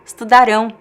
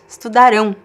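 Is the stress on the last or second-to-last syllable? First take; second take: last; last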